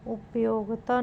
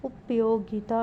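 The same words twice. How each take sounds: First: उपयोगिता squeezed to up-yog-ta; wrong pronunciation. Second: उपयोगिता said as up-yo-gi-ta; correct pronunciation. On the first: Teacher showing a spelling error, उपयोगिता as up-yog-ta. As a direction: drop the i from उपयोगिता. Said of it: "नहीं". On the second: Teacher giving the correction, उपयोगिता with "gi". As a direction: sound the "gi" in उपयोगिता. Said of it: "होगा". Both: Shown as a demonstration.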